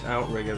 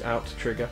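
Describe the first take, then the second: First: It is said as 'outrigger', with one t sound. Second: It is said as 'out-trigger', with 'trigger' heard. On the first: The speaker calls it wrong. "a lot of people call this Outrigger" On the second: The speaker calls it right. "it is two T's Outtrigger"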